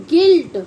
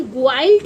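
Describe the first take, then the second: First: गिल्ट with a short i, silent u; correct reading. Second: ग्वाइल्ट with both u and i sounded, "gwilt"; wrong reading. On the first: Teacher showing children how guilt is read, clear pronunciation. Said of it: "इसको हम पढ़ते हैं". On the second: Teacher showing how not to read guilt, mispronounced. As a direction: say ग्वाइल्ट with a w glide after g. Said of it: "इसे हम ग्वाइल्ट नहीं पढ़ते". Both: Shown as a demonstration.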